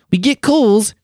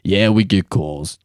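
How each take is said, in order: First: High-pitched mock Australian accent. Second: Slow mock Australian accent. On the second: Shown as a demonstration. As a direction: draw out the words in a put-on Australian accent. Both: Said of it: "that's my Australian accent".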